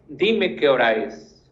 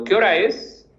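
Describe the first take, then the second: First: "Dime qué hora es" falling flat, stress on dime; falling command. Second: "¿Qué hora es?" asked with a lift on hora; rising question. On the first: Teacher models the plain command form, falling. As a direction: dime hit, then settle down. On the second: Teacher models a direct question to the class, rising. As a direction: hora raised as a real question. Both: Shown as a demonstration. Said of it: "así como cuando".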